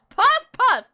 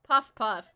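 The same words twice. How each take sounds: First: It is said with lots of gusto. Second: It is said flatly, without much energy.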